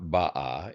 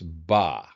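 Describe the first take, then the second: First: It is said with two syllables. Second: It is said with one syllable. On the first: The speaker calls it wrong. "It's not ba'a in the third person" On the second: The speaker calls it right. "but rather it's ba. So that drops out"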